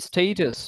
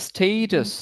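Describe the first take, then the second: No difference in how they are said.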